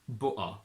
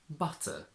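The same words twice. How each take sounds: First: The t is replaced by a glottal stop. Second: The t is fully pronounced.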